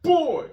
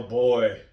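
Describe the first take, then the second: First: Put-on very high, loud little-girl yell of boy; imitating Ella yelling boy; imitating daughter's yell. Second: Put-on loud yell of boy; dad yelling for his son. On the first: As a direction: copy the kid sister's shrill yell. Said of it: "And Ella would yell". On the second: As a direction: call the son from far away. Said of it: "I'd yell".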